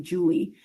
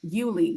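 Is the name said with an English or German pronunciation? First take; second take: English; German. First: The name is said with an English pronunciation. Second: The name is said with a German pronunciation. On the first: "in English we'd say Julie" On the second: "that's a German pronunciation"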